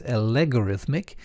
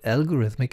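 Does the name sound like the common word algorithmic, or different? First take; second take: different; common word. First: It sounds different from the ordinary word algorithmic. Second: It sounds like the ordinary word algorithmic. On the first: The speaker calls it right. "it's Algorithmic" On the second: The speaker calls it wrong. "It's not algorithmic"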